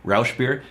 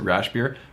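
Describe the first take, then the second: No difference in how they are said.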